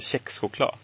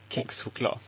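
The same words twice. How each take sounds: First: The word is said in the speaker's regional way. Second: The word is said in the more widespread way. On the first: This is how people from the speaker's background say it. "Med min bakgrund så är det förstnämnda det som är rätt" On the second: This is how many other people say it. "Även om många andra skulle uttala det kexchoklad"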